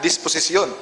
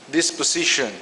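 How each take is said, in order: First: It is said with a Bisaya-style pronunciation. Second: It is said with a plain English pronunciation.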